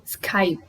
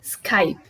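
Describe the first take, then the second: First: The word stops on the P sound. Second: The same.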